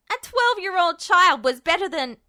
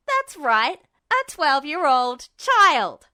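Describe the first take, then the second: First: Loud and higher, cut off; Ed's defiant shout. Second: Loud, slow, defiant shout; Ed's shout. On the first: Acted. Ed lunges shouting at Justin, loud. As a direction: yell it as he lunges. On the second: A narrator's reading. Ed shouts back at Justin, loud and slow. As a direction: throw it back in his face. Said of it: "Ed shouted".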